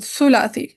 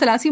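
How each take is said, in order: First: The first syllable has a 'u' vowel. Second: The first syllable has an 'a' vowel. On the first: The speaker calls it right. "सा के ضمة के साथ सुलासी" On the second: The speaker calls it wrong. "हम सलासी बोलते हैं ना?"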